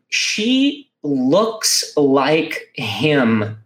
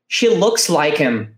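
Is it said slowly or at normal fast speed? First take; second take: slowly; fast. First: It is said slowly and clearly. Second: It is said fast, at natural speed.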